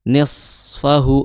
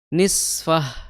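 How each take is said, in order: First: The s sound is thick and heavy. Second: The s sound is thin, like a plain s. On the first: The speaker calls it right. "shad ... Di situ tebal shad" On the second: The speaker calls it wrong. "Kalau nis tipis itu jadi sin"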